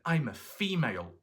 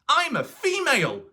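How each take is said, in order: First: It is said at a normal volume. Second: It is shouted loudly.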